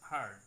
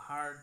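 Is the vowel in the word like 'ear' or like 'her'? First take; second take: her; her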